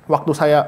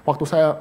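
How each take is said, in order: Both takes have the same delivery.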